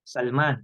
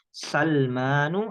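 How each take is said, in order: First: The name ends on the bare consonant n. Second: The name ends with a plain -u vowel. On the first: "Kita kan biasanya matikan" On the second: "Yang benar adalah Salmanu"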